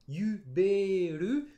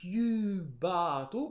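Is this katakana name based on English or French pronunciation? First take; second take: French; English. First: It follows the French pronunciation of the name. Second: It follows the English pronunciation of the name. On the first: The name was taken from French. "katakanisé, ça donne en français" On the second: The name was taken from English. "en anglais"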